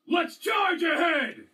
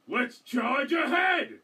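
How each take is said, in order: First: It is said with more energy. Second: It is said with less energy.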